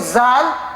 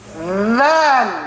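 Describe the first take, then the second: First: The word begins with a buzzing z sound. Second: The word begins with a soft th sound. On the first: The speaker calls it wrong. "So don't say zal" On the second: The speaker calls it right. "like we say the, the in English"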